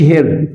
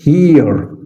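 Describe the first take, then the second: First: "هير" with a short eh vowel; wrong short vowel. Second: "هير" slow with a stretched ee; long ee. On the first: Teacher showing what not to say, "هير" with short eh. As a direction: say "هير" short, like English "her". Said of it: "ما اقولش هير". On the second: Teacher correcting to long E, "هير" stretched slowly. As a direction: draw out "هير" like English "here". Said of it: "الاي مد بالكسر زي هير". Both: Shown as a demonstration.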